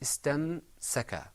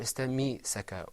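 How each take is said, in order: First: No vowel follows the m sound. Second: An i vowel follows the m sound. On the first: The speaker calls it right. "It was istamsaka" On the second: The speaker calls it wrong. "or istammi-saka"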